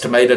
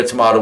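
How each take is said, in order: First: "tomato" with a long AY in the middle. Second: "tomato" with an open AH in the middle. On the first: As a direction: say "tomato" as to-MAY-to. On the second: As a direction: say "tomato" as to-MAH-to. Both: Shown as a demonstration. Alternative names, said two ways.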